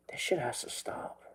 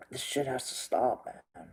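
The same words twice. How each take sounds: First: Whispered, much softer, voice dropping away; hushed whisper. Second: Said in the usual way. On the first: Real, not acted. Repeating his lament to viewers, now whispered. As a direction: let it fall to a whisper.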